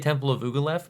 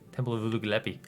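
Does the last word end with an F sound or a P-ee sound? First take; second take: F sound; P-ee sound. First: The last word ends with an f sound. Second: The last word ends with a p-ee sound. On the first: The speaker calls it wrong. "So I say Temple of Ugalef" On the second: The speaker calls it right. "but it's Epi"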